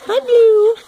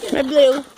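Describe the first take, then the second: First: High pet voice. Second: Said in the usual way. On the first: Real, not acted. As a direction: coo it up high like to a puppy. Greeting dog in pet voice.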